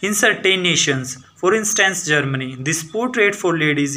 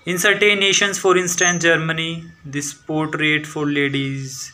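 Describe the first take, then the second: First: It keeps one steady speed throughout. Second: It starts fast and then slows down. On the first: The speaker calls it right. "आपको same speed रखनी है" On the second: The speaker calls it wrong. "Starting में तेज फिर down हो जाते हैं"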